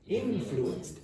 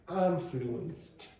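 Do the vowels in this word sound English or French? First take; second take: English; French. First: The vowels are pronounced with an English quality. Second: The vowels are pronounced with a French quality. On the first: The speaker calls it right. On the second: The speaker calls it wrong.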